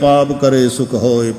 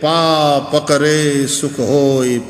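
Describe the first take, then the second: First: The line is said at a normal pace. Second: The line is said very slowly, words split apart.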